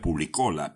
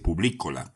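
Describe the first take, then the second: First: The stress falls on a syllable other than 'li'. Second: The stress falls on the 'li' syllable. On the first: The speaker calls it wrong. "Yo decía Publicola" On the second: The speaker calls it right. "con un acento en la letra I"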